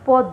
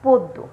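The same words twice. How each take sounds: First: The first vowel is an open 'aw' sound. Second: The first vowel is a closed 'o' sound. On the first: The speaker calls it wrong. "নয়" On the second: The speaker calls it right. "বলছি পয় ওকার দয় জফলা"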